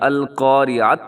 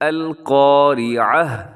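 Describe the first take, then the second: First: The word ends with a bare 't' sound. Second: The word ends with a soft 'h' sound. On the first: The speaker calls it wrong. "या अल क़ारिअत नहीं पढ़ेंगे" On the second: The speaker calls it right. "ता को हा से बदलेंगे और हा को साकिन करके पढ़ेंगे"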